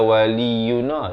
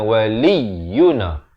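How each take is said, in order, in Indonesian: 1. Bunyi tengah diucapkan ringan, tanpa tekanan. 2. Bunyi tengah ditekan dengan penekanan yang jelas. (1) "jangan baca waliyuna" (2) "tekankan, dia kena waliyuna"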